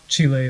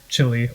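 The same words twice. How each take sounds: First: It is pronounced close to the local way. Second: It is pronounced in an anglicized American way. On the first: "in ways more similar to how people from those places pronounce them"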